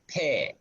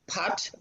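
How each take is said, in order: First: The word is said the Tibetan way. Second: The word is said the Sanskrit way. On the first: "but Tibetans say pair" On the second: "Sanskrit is pat"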